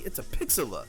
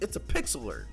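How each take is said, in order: First: The word ends in a vowel, without R. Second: The word ends with a clear, hard R sound. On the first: The speaker calls it right. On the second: The speaker calls it wrong.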